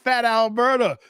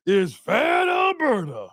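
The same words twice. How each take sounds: First: Said in the usual way. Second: "Fat Alberta" stretched slowly with weight on "fat"; drawn-out emphasis. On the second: Real, not acted. Host savoring a chat nickname, slow and weighty.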